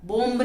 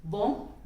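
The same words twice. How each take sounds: First: "बॉम्ब" with the b voiced, "bombə"; wrong, b sounded. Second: "बॉम्ब" as "bom", no final b; the b stays silent in "बॉम्ब"; silent b demo. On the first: Teacher shows the wrong way, "बॉम्ब" with a b. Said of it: "नहीं बोलते". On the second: Teacher to class, says "बॉम्ब" without the b. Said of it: "बॉम्ब नहीं बोलते". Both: Shown as a demonstration.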